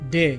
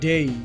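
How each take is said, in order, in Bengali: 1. স্বরধ্বনিটি একটি সরল, ছোট 'e'। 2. স্বরধ্বনিটি 'e' থেকে 'ee'-তে গড়িয়ে যায়। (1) "এটি ভুল উচ্চারণ" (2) "এর সঠিক উচ্চারণটি হবে ডেই"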